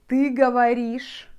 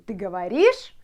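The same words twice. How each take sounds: First: The pitch falls at the end like a statement. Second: The pitch rises at the end like a question. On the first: It states that the listener speaks. "in Russian you could say" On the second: It asks whether the listener speaks. "if I'm asking you, ... I just change my intonation"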